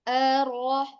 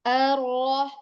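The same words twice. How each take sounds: No difference in how they are said.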